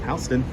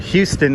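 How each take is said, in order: First: The name is pronounced the local New York way. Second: The name is pronounced the way visitors say it. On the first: This is how locals say the street name. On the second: This is how visitors say the street name.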